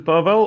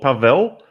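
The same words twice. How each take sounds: First: The final L is a hard L. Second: The final L is a soft L. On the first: The speaker calls it wrong. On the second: The speaker calls it right.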